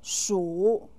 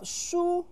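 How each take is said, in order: First: The syllable has a low dipping tone. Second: The syllable has a high level tone. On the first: It means potato or yam. The speaker calls it wrong. "with the third tone" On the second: It means book. The speaker calls it right. "with the first tone"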